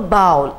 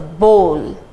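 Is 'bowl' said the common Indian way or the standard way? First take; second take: common Indian; standard. First: The word is said the common Indian way. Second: The word is said the standard way. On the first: The speaker calls it wrong. "a common Indian who is not well versed with English pronounces it as bowl. It is not a bowl" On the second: The speaker calls it right. "it is a bowl"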